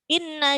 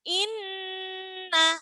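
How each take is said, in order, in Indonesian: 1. Bunyi sengau n dipotong sangat pendek. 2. Bunyi sengau n ditahan selama tiga ketukan. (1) "Kalau terlalu sedikit nanti seperti tasydid" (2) "dengungnya tiga ketukan"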